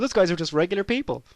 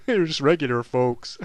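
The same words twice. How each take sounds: First: Said in the usual way. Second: Regular folks said American style; mock American accent. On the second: Shown as a demonstration. Laughing at his Americanism, mock American accent. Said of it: "I've been in America too long".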